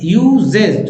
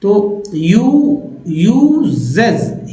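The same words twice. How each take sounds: First: Said in the usual way. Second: "यूजेज" धीमे, ज साफ़ बोलकर; careful pronunciation. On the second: Shown as a demonstration. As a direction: stretch "यूजेज" with a clear z. (धीमे "यूजेज", ज पर ज़ोर) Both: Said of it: "ES को ऐसे भी ज बोलते हैं".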